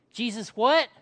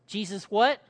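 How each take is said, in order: Both takes have the same delivery.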